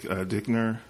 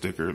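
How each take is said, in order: First: The name has an n sound before the end. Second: The name has no n sound before the end. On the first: The speaker calls it wrong. "not Dickner" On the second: The speaker calls it right. "I think it's Dicker"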